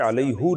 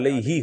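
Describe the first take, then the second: First: The word ends with an 'oo' vowel. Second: The word ends with an 'ee' vowel. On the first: This is the form recited in the Quran. "आम कायदे हैं वो उसके लिहाज से अलैहु नहीं होता" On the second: This is the form under ordinary Arabic rules. "बल्कि अलैही होता है"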